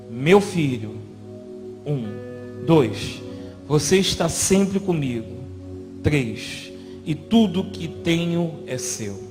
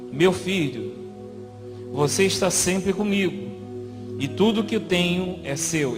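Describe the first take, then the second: First: It is read with long counted pauses. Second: It is read straight through without long pauses.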